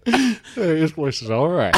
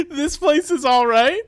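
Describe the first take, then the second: First: Slow lazy Western saloon drawl; old Western drawl. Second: Higher, slow cowboy drawl; slow it down like an old Western gunslinger; imitating old Western drawl. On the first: Retold or imitated. Improviser repeating the line in a lightly voiced Western drawl. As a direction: lean back and drawl it out. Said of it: "like old Western times". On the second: Comedian repeating his partner's line, mock Western drawl. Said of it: "She says".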